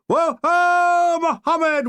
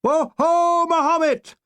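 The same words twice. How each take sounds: First: High, loud whooping yell; battle cry yell. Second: High, loud whooping yell; battle cry again. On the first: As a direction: whoop it out in triumph. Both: Retold or imitated. Troops cheering the downed plane, loud whooping battle cry. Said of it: "we yelled".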